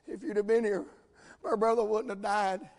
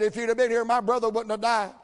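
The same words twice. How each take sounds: First: It is said in a weeping, tearful tone. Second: It is said in a confrontational, accusing tone.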